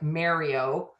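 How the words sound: The 'a' has the speaker's Canadian vowel. The speaker calls it wrong. "I say my A's like Nirvana, like Mario"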